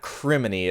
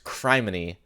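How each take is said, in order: First: The first syllable rhymes with 'him'. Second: The first syllable sounds like 'crime'. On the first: The speaker calls it wrong. "It's not criminy" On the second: The speaker calls it right. "but it's criminy"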